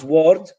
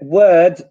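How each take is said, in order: First: Its vowel sounds like the one in 'ward'. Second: It has the standard 'word' vowel. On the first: The speaker calls it wrong. "it sounds a little bit like ward, a hospital ward" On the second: The speaker calls it right. "word becomes ward"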